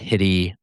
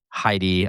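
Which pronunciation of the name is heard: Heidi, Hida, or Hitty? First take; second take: Hitty; Heidi. First: The name is said as Hitty. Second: The name is said as Heidi. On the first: "Not Hitty" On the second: "or Heidi"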